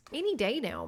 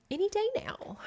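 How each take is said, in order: First: Said in the usual way. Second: Hushed, voiceless, higher whisper. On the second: Pretend. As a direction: breathe it like a secret hope. Repeats phrase as hushed hope.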